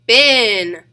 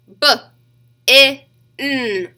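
First: Said in the usual way. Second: "B-I-N" as buh, short i, nnn; sounded out. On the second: Shown as a demonstration. Teacher leading children to tap along, sounded out. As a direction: break "B-I-N" into separate sounds with pauses. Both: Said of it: "Tap it with me".

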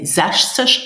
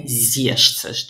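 First: "sechzig" as zesh-tsesh, short open e; first variant. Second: "siebzig" as zee-esh-tsesh, long ee glide; alternative variant. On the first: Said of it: "some people say sechzig". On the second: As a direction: say "siebzig" with a gliding first vowel. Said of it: "others say siebzig". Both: Shown as a demonstration.

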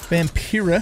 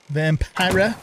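First: Vampira said as vam-PEER-a; Vampira with EE sound. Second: Vampira said as vam-PIE-ra; Vampira with long I. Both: Shown as a demonstration. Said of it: "I don't know if it's pronounced".

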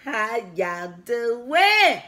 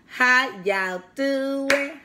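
First: Slowly sung, drawn-out greeting. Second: Said in the usual way. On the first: Shown as a demonstration. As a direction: sing the hello to the viewers.

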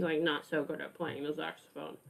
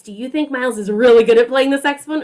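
First: Much softer, lower, deflated; droopy doubtful. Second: Fast, louder, keen question; upbeat and bright. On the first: Asking the children if Miles plays badly, low and deflated. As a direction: let "not so good" sag down glumly. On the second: Asking the children whether Miles plays well, fast and eager. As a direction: sell "really good" with quick enthusiasm. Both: Shown as a demonstration. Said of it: "Show me with your face".

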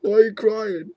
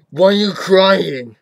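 First: Raised, louder put-on questioning; mock demanding. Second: Loud, drawn-out demand; mock exasperated shout. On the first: Vlogger questioning their own tears, mock demanding. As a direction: ask it as if challenging a crybaby. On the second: Vlogger asking the crybaby once more, mock exasperated shout. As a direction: belt the question out slowly. Repeats question louder, slower.

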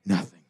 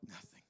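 First: Said in the usual way. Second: Nothing breathed almost silently; barely voiced echo. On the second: Shown as a demonstration. Preacher echoing his point to the congregation, almost silent. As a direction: let Nothing fade to almost nothing. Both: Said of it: "Nothing is as important".

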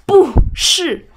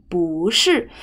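First: 不是 as two high, forceful falls; 不 falling hard from high, not rising, then 是 falling too; over-powered double fourth tone. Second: 不 rising, then 是 falling firmly; 不是 said up, then powerful down; second tone then fourth. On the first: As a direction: punch 不 and 是 sharply downward. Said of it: "Don't, don't need that much power". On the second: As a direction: glide up on 不, drop down on 是. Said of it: "second is to up and then powerful down". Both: Shown as a demonstration.

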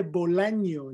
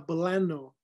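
First: Said in the usual way. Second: "bolano" as American buh-LAH-noh, no ñ; anglicized pronunciation. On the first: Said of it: "Se dice bolaño". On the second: Shown as a demonstration. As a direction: say "bolano" with plain n and weak first vowel. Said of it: "no bolano".

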